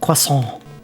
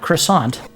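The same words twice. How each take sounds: First: The word ends without a T, French-style. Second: The word ends with a sounded T. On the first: The speaker calls it right. "Drop the T at the end" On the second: The speaker calls it wrong. "It's not croissant"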